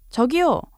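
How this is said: It is called out loudly as if from afar.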